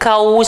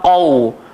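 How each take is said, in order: First: The first consonant is thin, like a plain k. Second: The first consonant is deep, from the tongue's back. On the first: The speaker calls it wrong. "jangan jadi kau saja. Kalau kau jadi kaf" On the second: The speaker calls it right. "qaf keluar dekat belakang lidah, pangkal lidah"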